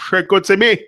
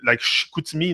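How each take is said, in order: First: "Chicoutimi!" called out louder and higher, like a local from the Saguenay; Chicoutimi accent. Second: Said in the usual way. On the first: Retold or imitated. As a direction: shout "Chicoutimi!" the way the locals say it, with a strong regional accent. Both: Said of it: "ils ont un accent assez prononcé".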